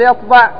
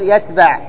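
First: The middle t sound is emphatic and heavy. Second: The middle t sound is plain and light. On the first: The speaker calls it right. "يقول يطبع بالطاء" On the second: The speaker calls it wrong. "يقول يتبع"

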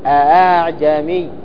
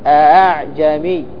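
First: The second hamza is softened toward a long a. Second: The second hamza is softened toward a long a.

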